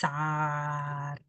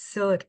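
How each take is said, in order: First: The word has a long, open 'aa' vowel. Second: The word has a short, central vowel. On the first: The speaker calls it wrong. "Not సార్" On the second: The speaker calls it right. "It's సర్ not సార్"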